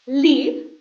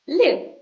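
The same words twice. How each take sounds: First: "Leave" with a long ee vowel. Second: "live" with a short clipped i. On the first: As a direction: stretch the ee in "Leave" for repeating. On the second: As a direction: keep the i in "live" short and quick. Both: Shown as a demonstration. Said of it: "repeat after me".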